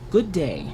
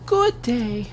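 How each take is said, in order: First: It is said in a natural reading voice. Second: It is said in a put-on feminine voice. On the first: "I'm just gonna read it" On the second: "I need a, a more feminine voice"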